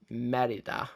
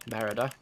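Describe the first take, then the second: First: Merida with a tapped Scottish R; poor attempt at saying Merida in a Scottish accent. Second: Said in the usual way. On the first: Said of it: "my poor attempt at obviously doing the accent". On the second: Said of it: "Should I just start saying it normally?".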